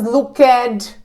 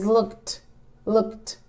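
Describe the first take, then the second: First: "looked" said as look-ed with a full extra vowel; wrong extra syllable. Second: "looked" said as one syllable ending in t. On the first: Teacher showing students the wrong way, look-ed. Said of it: "It's not looked". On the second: Teacher giving the right way after the wrong one, softly. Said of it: "It's not looked, it's looked". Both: Shown as a demonstration.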